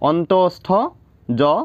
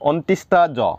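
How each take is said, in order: First: The middle sound is a plain 'stho'. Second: The middle sound is 'shtha' with an added 'i'. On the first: The speaker calls it right. "এইটো হ'ব লাগে অন্তস্থ" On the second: The speaker calls it wrong. "এনেকুৱা বেলেগ বেলেগ উচ্চাৰণ কৰে বহুতে"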